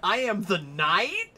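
The voice rises at the end.

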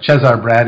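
The name is pronounced with Romanian sounds.

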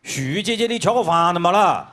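It is said in a fierce, harsh way.

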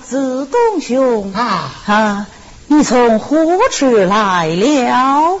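It is drawn out in stylized opera recitation. It marks the speaker as someone from ancient times. "这就是叫韵白"

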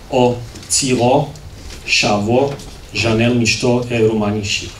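The words shavo and ship use sh sounds.

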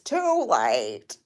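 It is said in a put-on Grinch character voice.

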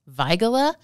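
The name is said in a German way. This follows the German name it honors. "technically, it should be pronounced"

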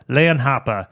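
It is said in a Boston accent.

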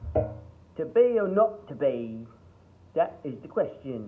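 It is said in a broad Cockney accent. "you did Cockney"

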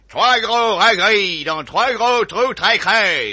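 It is said with an American-sounding accent.

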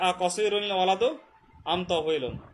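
The words are run together, with final nunation.

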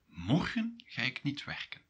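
Morgen is strongly emphasized.

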